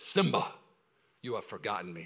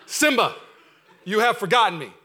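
First: Hushed, lower Mufasa line, barely voiced as the king; quietly hint at the lion king father; soft half-try at a regal lion father. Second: Loud, mock-regal lion king voice; hammed-up loud lion father; booming Mufasa. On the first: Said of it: "comes to Simba and says". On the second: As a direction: boom it out like the king of Pride Rock. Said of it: "I'm not gonna try Dream Zero".

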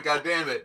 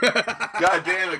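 First: Said in the usual way. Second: Drawn-out, slow mock "God damn it", higher; imitating Dylan's catchphrase. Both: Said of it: "I say "God damn it" a lot".

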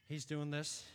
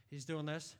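Both takes have the same delivery.

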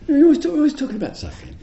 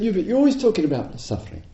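First: Fast, much higher exasperated whine; mock complaint. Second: Quick, higher nagging tone; mock complaint. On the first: Retreatant complaining to the teacher, fast high whine. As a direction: pile up the accusation in a squeal. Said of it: "she said". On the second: Retreatant complaining to the teacher, quick and mocking. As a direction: rattle off the grievance. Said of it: "And she said".

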